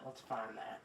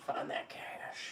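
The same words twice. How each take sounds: First: Said in the usual way. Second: Slow unvoiced whisper. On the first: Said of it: "Find that cash (whispered)". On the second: King sneaking after the cash, slow whisper. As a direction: hush it so nobody hears.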